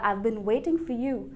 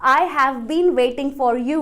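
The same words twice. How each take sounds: First: I have is shortened to I've. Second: I have is said as two full words. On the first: The speaker calls it right. "वो कहेगा" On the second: The speaker calls it wrong. "एक native speaker कभी भी ऐसे नहीं कहेगा"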